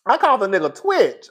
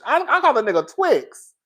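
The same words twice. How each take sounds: First: "Twitch" with a clear final tch; name said as Twitch. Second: "Twix" ending in ks like the candy bar; name said as Twix. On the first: Host settles the streamer's name as "Twitch". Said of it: "Wait, Twitch. There we go". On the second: Host admits she calls the streamer "Twix" like the candy. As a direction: end the name on "Twix", ks sound. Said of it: "'Cause I call him Twix". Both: Real, not acted.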